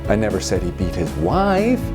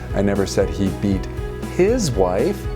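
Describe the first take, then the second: First: The word "wife" carries the main stress. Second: The word "his" carries the main stress. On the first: He beats other people, but not his wife. "which might mean uh, he beats his kids" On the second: He beats other men's wives, not his own. "That means he beats other people's wives"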